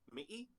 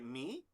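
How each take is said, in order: First: The word is said with a creaky tone. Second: The word is said with a rising tone. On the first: "the creaky tone is me, which means America" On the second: "me is uptone"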